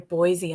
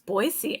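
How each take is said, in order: First: The middle consonant is a buzzing z sound. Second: The middle consonant is a hissing s sound. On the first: The speaker calls it wrong. "I heard someone the other day say Boise" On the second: The speaker calls it right. "no, it's Boise. I know how to say it properly now"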